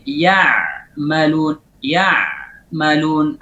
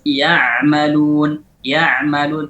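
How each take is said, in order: First: Ya malun broken with a stop before the ain; wrong reading; cut-off ain. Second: Ya malun joined smoothly; right reading; connected ain. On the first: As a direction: chop ya malun apart. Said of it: "Ada terpotong". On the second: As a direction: link ya malun without a break. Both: Shown as a demonstration.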